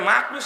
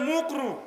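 First: The first vowel sounds like 'a'. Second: The first vowel sounds like 'u'. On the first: The speaker calls it right. "মানে মাকরু" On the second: The speaker calls it wrong. "মাকরু শব্দ ঠিকভাবে বলে না"

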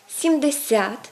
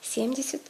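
First: The stress is on the second part of the word. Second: The stress is on the first part of the word. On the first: This is the Ukrainian stress. "наголошується друга частина" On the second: This is the Russian stress. "на відміну від першої частини у російських словах"

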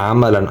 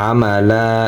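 First: The word ends with a short vowel and n. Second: The word ends with a lengthened vowel, no n. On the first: The reading continues on without stopping. "আমরা যে সময় বানাম করি পড়ি ওই সময় উচ্চারণ হবে কি আমা লাম দুই জবর লান" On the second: The reading stops at this word. "যে সময় অক্ফ করি বা থামি ওই সময় উচ্চারণ হবে আমালা, এক জবর উচ্চারণ হবে এবং একাল প্রাণ হবে"

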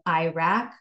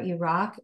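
First: The name is said with an anglicized pronunciation. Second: The name is said closer to the native pronunciation. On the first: The speaker calls it wrong. "instead of" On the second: The speaker calls it right. "closer to how those nationalities would pronounce them"

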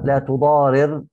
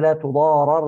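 First: The first r carries the vowel i. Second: The first r carries the vowel a. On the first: The subject causes the harm. "الاولى لا تضارر مبنيه للفاعل" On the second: The subject suffers the harm. "والثانيه لا تضارر مبنيه للمجهول"

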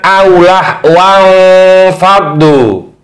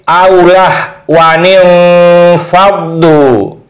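First: The nun has no vowel after it. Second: The nun is followed by an i vowel. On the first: The speaker calls it wrong. "Ini nunnya mati, ketemu nun mati, ini juga tidak boleh" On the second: The speaker calls it right. "nunnya yang tadi sukun dibaca kasrah"

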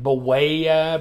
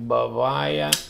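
First: The middle consonant is a plain W sound. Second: The middle consonant sounds almost like a V. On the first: "I was calling it Buwaya because that is way" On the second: "almost like a V in there, like Buwaya"

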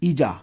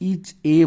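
First: The two words are linked into one. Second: The two words are said separately. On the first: The speaker calls it right. "এটাকে তোমরা পড়বা কি ইজা" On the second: The speaker calls it wrong. "ইজ এ বলবা না"

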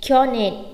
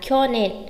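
Both takes have the same delivery.

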